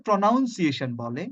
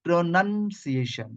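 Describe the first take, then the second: First: "প্রনাউন্সিয়েশন" with OUN in the middle; common mispronunciation. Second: "প্রনাউন্সিয়েশন" slowly, with NUN in the middle; correct pronunciation. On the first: Teacher quotes what many people say, wrong pronunciation. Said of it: "অনেকে প্রনাউন্সিয়েশনটাকে প্রনাউন্সিয়েশন বলে". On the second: Teacher models the noun for students, slow correct pronunciation. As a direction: say "প্রনাউন্সিয়েশন" as pro-NUN-see-AY-shun. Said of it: "but noun is pronunciation". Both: Shown as a demonstration.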